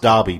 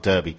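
First: The first vowel sounds like 'ar'. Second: The first vowel sounds like 'er'. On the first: The speaker calls it right. "it's pronounced Derby" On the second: The speaker calls it wrong. "not Derby"

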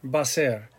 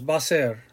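First: It is run together into two syllables. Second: The same.

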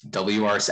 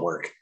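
First: It is said as three separate letters. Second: It is said as the single word work. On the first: "It's a lot less syllables" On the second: "I call it work"

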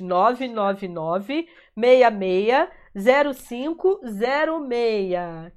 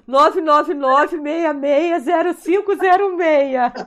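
First: It is said slowly. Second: It is said at normal speed.

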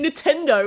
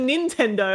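First: The second n sound is left out. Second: The second n sound is clearly pronounced. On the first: The speaker calls it wrong. "she didn't pronounce the second N" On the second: The speaker calls it right. "instead of Nintendo"

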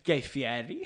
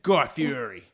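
First: The name is given an Italian-sounding pronunciation. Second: The name is given a plain American pronunciation. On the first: The name is treated as grander than it deserves. The speaker calls it wrong. "you gave him the like, Italian" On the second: The name is treated as ordinary. The speaker calls it right. "No, he's like"

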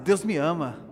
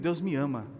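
First: It is said more loudly. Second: It is said at normal volume.

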